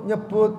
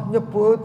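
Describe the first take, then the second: The two takes are said the same way.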